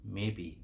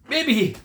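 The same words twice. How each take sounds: First: Soft, low and unbothered; the old farmer answers the jealous farmers, calm and low; quiet calm maybe. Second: High, loud sneering echo of maybe; mocking echo. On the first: Acted. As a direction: shrug it off softly. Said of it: "the old farmer would say". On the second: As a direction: throw his word back with a sneer. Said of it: "Thought the other farmers".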